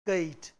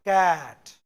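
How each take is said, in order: First: The word is said with a Hindi-style vowel. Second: The word is said with an English-style vowel. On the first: The speaker calls it wrong. "और क्या बोल गई इसको, ये कैट, कैट, क्योंकि हिंदी में पढ़ोगे तो ये यही है" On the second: The speaker calls it right. "अलग प्रोनाउंसिएशन। It's कैट"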